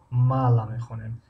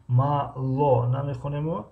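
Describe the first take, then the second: First: Мало said as мала; the spoken way, reduced о; right reading. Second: Мало read slowly with a full о; the spelled way, not how it is said; wrong reading. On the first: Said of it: "мала мехонем". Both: Shown as a demonstration.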